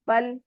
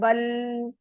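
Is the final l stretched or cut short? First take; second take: short; stretched. First: The final l is cut short. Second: The final l is stretched out. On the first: The speaker calls it right. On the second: The speaker calls it wrong.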